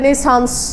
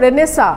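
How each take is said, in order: First: The word ends with a final s sound. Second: The word ends without a final s sound. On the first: The speaker calls it wrong. "যারা জানে না তারা রেনেসান্স এরকম করে বলে" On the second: The speaker calls it right. "ওই সাসটা ইয়া যাবে, omit হবে"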